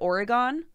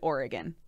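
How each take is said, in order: First: It is said the out-of-state way. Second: It is said the in-state way. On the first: This is how people elsewhere in the country say it. The speaker calls it wrong. "everywhere else in the country they pronounce it Oregon" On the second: This is how people from the state say it. The speaker calls it right. "If you're in Oregon, everybody pronounces it Oregon"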